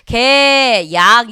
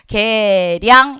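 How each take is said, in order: First: The second syllable starts with a plain vowel sound. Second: The second syllable starts with an r/l sound. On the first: The speaker calls it wrong. "이렇게 되지 않고" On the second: The speaker calls it right. "개량 이렇게 간다는 얘기예요"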